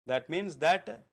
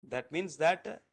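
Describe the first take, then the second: Both takes have the same delivery.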